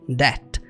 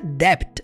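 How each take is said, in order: First: The b sound is silent. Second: The b sound is pronounced. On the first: The speaker calls it right. "você fala debt. Você vai ignorar o B" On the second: The speaker calls it wrong. "Essa palavra você não pronuncia debt"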